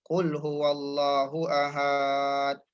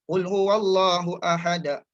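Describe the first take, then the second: First: The final syllable of ahad is drawn out long. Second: The final syllable of ahad is cut off abruptly. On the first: The speaker calls it wrong. "sepatutnya dia cut off dekat situ tapi dia dia delay. Dia jadi mad arid li sukun" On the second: The speaker calls it right. "Sepatutnya dia baca"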